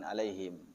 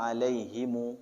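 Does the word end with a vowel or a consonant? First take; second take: consonant; vowel. First: The word ends on the final consonant. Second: The word ends with an added final vowel. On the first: This is the usual reading. "bukan alaihim" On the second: This is the reading of a different transmission. "riwayat Imam Qalun itu baca"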